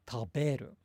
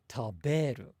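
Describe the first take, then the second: No difference in how they are said.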